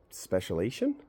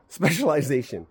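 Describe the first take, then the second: First: "specialization?" said as spe-sha-LAY-shun, skipping the "-liz-" syllable, with a questioning rise; unsure mispronunciation. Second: "Specialization." said in full as spe-sha-lie-ZAY-shun with a little laugh and a firm falling end; corrected pronunciation. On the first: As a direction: stumble on "specialization?", dropping the middle syllable and trailing up unsure. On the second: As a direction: land "Specialization." properly with every syllable, louder and amused. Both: Real, not acted.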